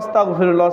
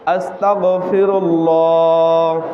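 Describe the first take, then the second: First: The word is pronounced loosely and carelessly. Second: The word is pronounced carefully and clearly. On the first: The speaker calls it wrong. "এখানে অনেকে বলে" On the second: The speaker calls it right. "সঠিক উচ্চারণ করতে হবে। আমার কণ্ঠটা সুন্দর করে শোনেন"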